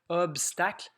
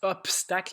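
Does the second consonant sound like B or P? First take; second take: B; P. First: The consonant after the first vowel sounds like B. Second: The consonant after the first vowel sounds like P. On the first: The speaker calls it right. "mais c'est vraiment obstacle" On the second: The speaker calls it wrong. "Il y en a qui prononcent obstacle"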